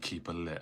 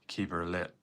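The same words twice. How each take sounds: First: It is said in the speaker's own accent. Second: It is said in an imitated Northern Irish accent. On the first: "I'll just say keep her lit" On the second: "when you guys say it, it's like"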